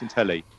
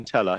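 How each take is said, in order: First: The word ends with an 'ee' sound. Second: The word ends with an 'uh' sound. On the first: The speaker calls it right. "It's Intelli" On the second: The speaker calls it wrong. "It's not Intella"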